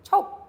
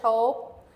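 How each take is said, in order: First: The word is said quickly. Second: The word is said slowly. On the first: "and then faster"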